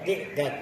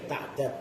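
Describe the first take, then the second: First: The first vowel is an i sound. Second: The first vowel is an a sound. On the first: "ti'dad boleh" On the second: "ta'dad boleh"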